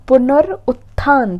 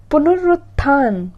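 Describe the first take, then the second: First: पुनरुत्थान stretched very slowly, a bit louder; slower louder word. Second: पुनरुत्थान said slowly; slow word. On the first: Teacher repeats पुनरुत्थान slowly and emphatically. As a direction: stress पुनरुत्थान slowly and clearly. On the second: Teacher slowly models पुनरुत्थान for students. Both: Shown as a demonstration.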